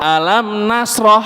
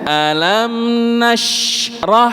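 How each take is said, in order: First: The shin runs straight into the ra. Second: The shin is fully sounded before the ra. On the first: The speaker calls it wrong. "Jangan dibuat seolah-olah alam nasroh. Jadi seolah-olah shin dan ra-nya niku nembus" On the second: The speaker calls it right. "Jadi shinnya habiskan dulu suaranya Pak Bu, baru pindah ke huruf ra"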